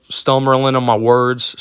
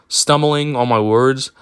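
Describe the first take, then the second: First: "stumbling" slurred to "stummerling"; stumbling garbled. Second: Said in the usual way. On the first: Real, not acted. Tripping over "stumbling" while telling the story, garbled. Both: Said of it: "That's not even a fucking word".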